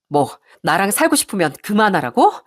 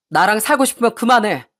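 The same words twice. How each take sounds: First: Incredulous question with a rising end; indignant echo. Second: Firm demand with a falling end; stern ultimatum. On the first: Wife repeats her husband's ultimatum back at him, indignant echo. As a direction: throw the words back as a challenge. 아내가 남편 말을 되받아 따짐. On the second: Husband scolding his wife over his mother, stern ultimatum. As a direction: lay down a condition, mildly cross. 남편이 아내에게 던지는 최후통첩. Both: Acted.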